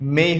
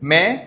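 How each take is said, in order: First: The vowel glides from 'e' to 'i'. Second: The vowel is a pure 'e' sound. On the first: The speaker calls it right. "আজকে থেকে সেটা মেই হয়ে যাবে" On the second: The speaker calls it wrong. "মে বলতাম এতদিন"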